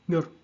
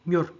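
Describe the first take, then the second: No difference in how they are said.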